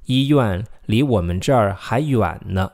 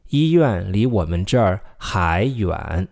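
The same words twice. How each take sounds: First: 医院离我们这儿还远呢 with a slow, stressed final 呢; emphatic ending. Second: Slow, careful read of 医院离我们这儿还远 without 呢; slow model sentence. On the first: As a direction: lean on the 呢 to show the contrast. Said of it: "to add emphasis, we put "n" at the end". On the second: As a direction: model it slowly for repeating. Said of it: "还" means still". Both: Shown as a demonstration.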